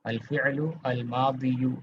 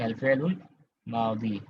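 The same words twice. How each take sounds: First: Slow "अल फ़िअलु अल मादियु", each word separate with its -u ending; unjoined full endings. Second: "अल फ़िअलुल मादी" with -lul linked and a long final -ii; correct linked reading. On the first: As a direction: sound out the final -yu in "मादियु", no linking. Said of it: "नहीं पढ़ेंगे". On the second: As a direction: join the article into "फ़िअलुल", end "मादी" without -yu. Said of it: "क्या पढ़ेंगे?". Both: Shown as a demonstration.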